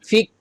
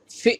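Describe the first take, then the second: First: "ফিক" with a released hard k; wrong k ending. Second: "ফি" cut off short, no k release; stopped "ফি". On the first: Teacher mimicking learners' mistake, "ফিক" with a popped k. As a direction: finish "ফিক" on an audible k. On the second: Teacher showing the proper sound, short stopped "ফি". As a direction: catch the end of "ফি" abruptly. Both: Shown as a demonstration. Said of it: "ফিক বললে হবে না".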